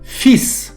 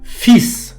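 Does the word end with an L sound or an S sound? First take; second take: S sound; S sound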